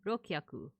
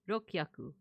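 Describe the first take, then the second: First: The u vowel is dropped between k and h. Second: The u vowel is dropped between k and h.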